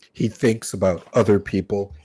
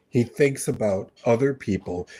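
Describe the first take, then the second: First: Other leaned on, rest plain; weight on the word other; He thinks about other people, stress on other. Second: Weight on the word He; He thinks about other people, stress on He. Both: Shown as a demonstration.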